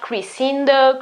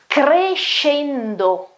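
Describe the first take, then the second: First: The middle consonant is not an 'sh' sound. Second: The middle consonant is an 'sh' sound. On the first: The speaker calls it wrong. "It's not crescendo" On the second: The speaker calls it right. "S C E in Italian, is pronounced she"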